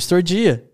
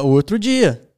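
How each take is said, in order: First: It is run together fast in mineiro style. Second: It is said clearly and carefully.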